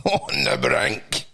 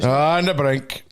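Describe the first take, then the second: First: Mock dramatic. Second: Slow, leaning on "the brink"; mock emphasis. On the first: Mocking the headline to his co-host, deep and slow. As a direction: drop very low and slow, laughing. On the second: Repeating the headline back to his co-host, slow. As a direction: stretch out "On the brink" for effect. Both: Shown as a demonstration. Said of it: "comments show man on the brink".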